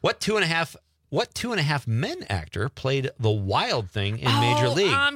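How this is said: It is read in an American accent. "I'm going to go with the American"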